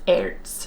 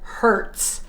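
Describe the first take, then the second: First: The word begins with a vowel. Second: The word begins with an H sound. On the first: The speaker calls it right. "the H is silent. It's Ertz" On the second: The speaker calls it wrong. "I said Hertz"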